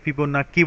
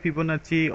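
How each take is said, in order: First: The last consonant is a 'k' sound. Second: The last consonant is a 'ch' sound. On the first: The speaker calls it wrong. "অনেকে ফিবোনাকি বলে ডেকে থাকেন" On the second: The speaker calls it right. "মূলত এটার উচ্চারণ হবে, সঠিক pronunciation হবে ফিবোনাচি"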